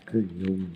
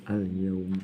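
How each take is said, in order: Both takes have the same delivery.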